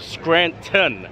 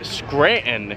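First: The middle T sound is pronounced. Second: The middle T sound is dropped. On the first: This is how most other people say it. "instead of Scranton" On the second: This is how people from the speaker's town say it. "We also say Scranton"

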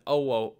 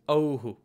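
First: The echo vowel after the breath is o. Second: The echo vowel after the breath is u. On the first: The speaker calls it wrong. "rather than oho" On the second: The speaker calls it right. "it's pronounced as ohu"

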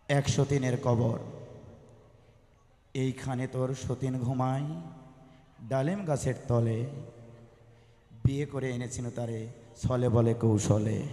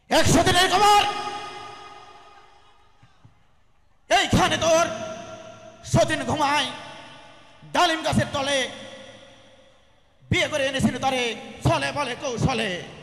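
First: It is recited in a plain, normal style. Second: It is recited in a politician's speech style.

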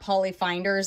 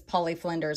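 First: The name is said without an L after F. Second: The name is said with an L after F. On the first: The speaker calls it wrong. "it's not Polly Finders" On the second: The speaker calls it right. "It's Polly Flinders"

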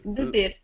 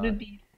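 First: The second vowel is an 'e' sound. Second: The second vowel is an 'ee' sound. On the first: The speaker calls it right. "Remember, not bebir" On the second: The speaker calls it wrong. "not bebir"

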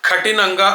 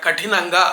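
First: The retroflex 't' is plain, without aspiration. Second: The retroflex 't' is aspirated. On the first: The speaker calls it wrong. "అట్లా కాకుండా కఠినంగా అంటున్నారు" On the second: The speaker calls it right. "కఠినంగా అనాలి"

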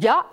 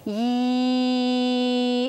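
First: The Y sound is followed by a short 'uh' vowel. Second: The Y sound is followed by a long 'ee' vowel. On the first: This way of saying the sound is hard to blend into a word. The speaker calls it wrong. "It's too hard to blend together" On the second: This way of saying the sound is easy to blend into a word. The speaker calls it right. "it would be lots easier for me to sound that out"

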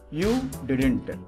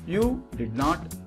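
First: The word 'not' is reduced and joined to 'did'. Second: The word 'not' is said as a separate full word.

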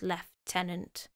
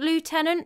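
First: The first syllable sounds like 'left'. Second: The first syllable sounds like 'loo'. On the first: "it's just pronounced as Lieutenant" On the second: "I think Lieutenant makes sense, ... the American way of doing it is probably better"

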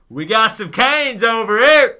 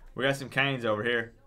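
First: It is said with lively enthusiasm. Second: It is said flatly, without enthusiasm. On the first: The speaker calls it right. "That's what it needs to be" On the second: The speaker calls it wrong. "She's like"

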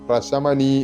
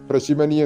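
First: The second syllable has the vowel 'a'. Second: The second syllable has the vowel 'i'. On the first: The speaker calls it right. "പ്രശമനി എന്ന് തന്നെയാണ്" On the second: The speaker calls it wrong. "പ്രശിമനി എന്ന് ഉച്ചരിക്കരുത്"

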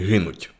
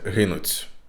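First: The final consonant sounds like a soft t. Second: The final consonant sounds like a soft ts. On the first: The speaker calls it right. "Треба казати гинуть. Тобто ті в кінці" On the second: The speaker calls it wrong. "Це таке цякання, це із російської мови прийшло"

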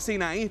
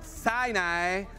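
First: The name is pronounced the Spanish way. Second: The name is pronounced the English way. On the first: "Yo le digo Sinaí" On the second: "¿cómo se pronuncia en inglés?"

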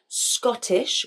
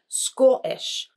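First: The middle t is a clear t sound. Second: The middle t is a glottal stop. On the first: "where I say Scottish with a T sound" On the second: "he would say Scottish"

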